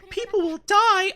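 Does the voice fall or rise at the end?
rise. The voice rises at the end like a question. Another character echoes it back as a question.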